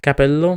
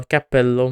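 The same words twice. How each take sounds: First: "Capello" with a short, single P; single consonant. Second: "cappello" with a held, doubled P; double consonant. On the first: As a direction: keep the P in "Capello" short, undoubled. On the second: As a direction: hold the P closure in "cappello". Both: Shown as a demonstration. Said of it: "we have double consonants".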